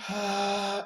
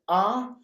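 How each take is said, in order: First: The vowel is breathy, with air escaping. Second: The vowel starts cleanly, with no breathiness. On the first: "let it come out in an airy tone" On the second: "with a crisp ah, no H"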